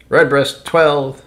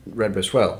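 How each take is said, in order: First: Loud, high, drawn-out presentation; grand announcement. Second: Said in the usual way. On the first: Acted. Host presenting a favorite of his father's, slow grand announcement. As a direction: announce it slowly and proudly. Presents the next whiskey on list.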